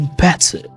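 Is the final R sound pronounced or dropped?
dropped. The final R sound is dropped. "you might say better"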